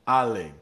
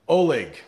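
First: The name begins with an A sound. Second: The name begins with an O sound. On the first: The speaker calls it right. "It's an A sound at the beginning there" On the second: The speaker calls it wrong. "I am pronouncing Oleg's name wrong"

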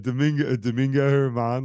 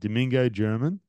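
First: The surname begins with an H sound. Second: The surname begins with a J sound. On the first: The speaker calls it right. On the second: The speaker calls it wrong.

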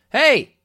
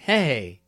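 First: It sounds like an angry, confrontational challenge. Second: It sounds shy and flirty, like a crush.

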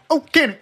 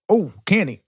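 First: It is said quickly. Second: It is drawn out slowly.

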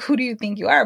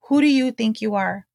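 First: It is said as a rude challenge. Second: It is said as a sincere question.

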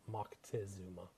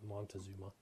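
First: A 'k' sound comes before the 't'. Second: An 'n' sound comes before the 't'. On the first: This is the proper original form of the name. The speaker calls it right. "is the appropriate pronunciation" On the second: This is the common American way of saying it. The speaker calls it wrong. "as they say here in the States"

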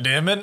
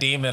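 First: The word is yelled in a loud, dramatic voice. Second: The word is said in a calm, normal voice. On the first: "I'm going, like" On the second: "Every time I say, like"

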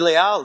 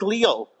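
First: The name is pronounced in a Spanish way. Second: The name is pronounced in an English way. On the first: This is how it is said in Miami. "in Miami it came to be Leal now, like it is in Spanish" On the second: This is how it was said in New York. "it was always in New York Leal"

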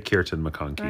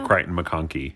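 First: The first name is said like Kirton. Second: The first name is said like Crichton. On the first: The speaker calls it right. "Say Kieran McConkie" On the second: The speaker calls it wrong. "So don't say Crichton McConkie"

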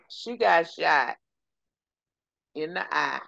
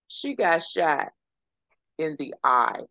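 First: It is said in a Texas accent. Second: It is said without a Texas accent.

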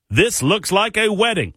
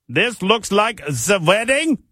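First: It is read in the speaker's normal accent. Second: It is read in a put-on German accent.

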